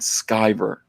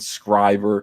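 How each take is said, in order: First: The surname begins with a sky sound. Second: The surname begins with a skri sound. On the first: The speaker calls it right. "My name is pronounced Ethan Van Sciver" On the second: The speaker calls it wrong. "or Ethan Scriver"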